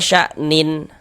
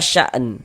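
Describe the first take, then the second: First: The word ends with an added -in sound. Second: The word ends on a bare n sound. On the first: The speaker calls it wrong. "jangan dibaca sya'nin baru berhenti" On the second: The speaker calls it right. "Ini kita baca sya'n"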